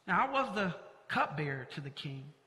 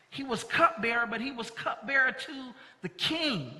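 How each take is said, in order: First: Now, I was the cupbearer to the king, with cupbearer leaned on; softer, weight on cupbearer; stress on cupbearer. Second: He was cupbearer, but he was cupbearer to the king, with king pressed hard; stress on to the king. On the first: Pastor showing the congregation the excuse reading, stress on cupbearer. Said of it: "we tend to place emphasis on the cupbearer". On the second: Pastor showing where the emphasis belongs, stress on king. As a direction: build to the king. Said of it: "exemplifies our value of emptying empowerment". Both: Shown as a demonstration.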